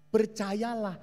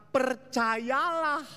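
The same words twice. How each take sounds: First: Said in the usual way. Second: Percayalah stretched very slow and high; Percayalah, drawn out long and high; drawn-out believe. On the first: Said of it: "repeated plainly". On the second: Shown as a demonstration. Preacher urging the congregation, slow high Percayalah. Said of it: "preacher stretches the word".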